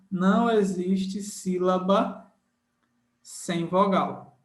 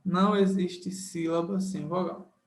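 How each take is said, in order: First: "Não existe sílaba", long pause, "sem vogal"; emphatic slow rule. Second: Said in the usual way. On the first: Shown as a demonstration. Teacher drills rule number one into students, slow and emphatic. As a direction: stretch the rule out, pausing before SEM VOGAL.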